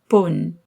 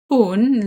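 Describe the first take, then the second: First: The vowel sounds like a short o. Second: The vowel sounds like the oo in spoon. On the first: The speaker calls it right. "but pun" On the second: The speaker calls it wrong. "Not pun like the word spoon in English"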